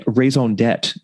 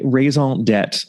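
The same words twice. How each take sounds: First: Raison d'etre said in a hammed-up French accent with a nasal on; mock-French raison d'etre, slow, tête-like ending; jokey bad French accent. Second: Raison d'etre in a light mock-French accent; casual bad French accent. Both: Shown as a demonstration. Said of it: "I will continue to employ my bad French accent".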